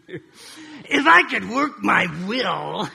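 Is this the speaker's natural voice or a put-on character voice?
put-on. It is read in a grumpy old man's voice.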